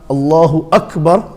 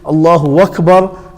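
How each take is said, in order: First: No w sound comes before akbar. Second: A w sound comes before akbar. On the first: The speaker calls it right. "that's the correct way" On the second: The speaker calls it wrong. "some pronounce it wakbar with a wow"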